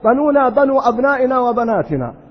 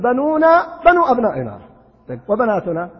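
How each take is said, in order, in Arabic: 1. تأتي الوقفة بعد كلمة 'wabanatuna'. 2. تأتي الوقفة قبل كلمة 'wabanatuna'. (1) "قد يقرأ قارئ ويقول ... ما يستقيم البيت" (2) "القراءة البيت تكون"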